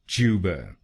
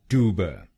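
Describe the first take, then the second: First: It is said in a British accent. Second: It is said in an American accent.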